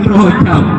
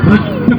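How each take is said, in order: First: The first vowel sounds like 'o'. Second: The first vowel sounds like 'e'. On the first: The speaker calls it wrong. "bukan Rojab" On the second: The speaker calls it right.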